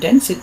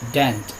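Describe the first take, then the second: First: The ending is said as an extra syllable. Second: The ending adds no extra syllable. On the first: The speaker calls it wrong. "kalau ini tidak dibaca dance it ya" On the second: The speaker calls it right. "Tapi ini dance"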